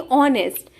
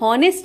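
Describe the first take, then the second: First: The word begins with a vowel, no h. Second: The word begins with an audible h sound. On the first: The speaker calls it right. "बल्कि ऑनेस्ट, यानी कि H silent होता है" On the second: The speaker calls it wrong. "To be हॉनेस्ट नहीं"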